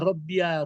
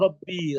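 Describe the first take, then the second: First: The word ends with an added 'ya' syllable. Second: The word ends on a plain 'ee' sound. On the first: The speaker calls it wrong. "tapi tidak dibaca Robbia" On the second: The speaker calls it right. "kalau kita menyeru dia kan kan kita katakan saja"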